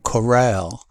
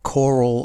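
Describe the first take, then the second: First: The stress is on the second syllable. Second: The stress is on the first syllable. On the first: "Corral shifts the stress to the second syllable" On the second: "the stress is on the first syllable"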